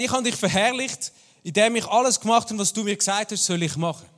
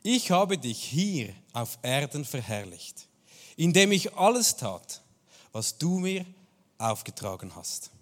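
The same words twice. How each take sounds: First: Higher and louder, driving the point home; raised, urgent retelling of the quote; emphatic paraphrase. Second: Slow, weighty reading of the scripture line; measured, reverent quoting; slow solemn quote. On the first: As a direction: preach it out with force. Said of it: "Also Jesus sagt". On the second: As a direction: let each word land slowly and solemnly. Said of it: "und da sagt Jesus". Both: Retold or imitated.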